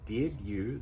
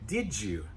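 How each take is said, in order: First: The d and y sounds stay separate. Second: The d and y blend into a j sound. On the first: "instead of did you" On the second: "So we're making that j sound"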